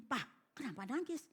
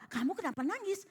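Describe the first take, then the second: First: Soft, rising question to a father; lightly acted child asking quietly; retold child's question. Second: Higher-pitched acted question in return; lightly acted father asking in return; retold question thrown back. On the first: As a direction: ask gently, imitating the puzzled child. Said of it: "Anaknya gini". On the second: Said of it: "Dia colek juga".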